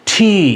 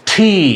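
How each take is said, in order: The two takes are said the same way.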